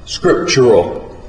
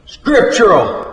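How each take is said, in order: First: Slow, drawn-out pronouncement; pompous preacher. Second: High, drawn-out holler; mocking holler. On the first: Preacher tells the waitress how he wants his steak, pompous. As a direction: stretch the word out like a sermon point. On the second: Cafe owner answers the cook with the preacher's word, hollering. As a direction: call it out high and slow, throwing his word back. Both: A narrator's reading.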